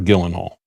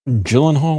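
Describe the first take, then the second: First: The name begins with a hard G sound. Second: The name begins with a soft J sound.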